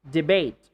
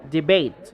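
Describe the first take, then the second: The two takes are said the same way.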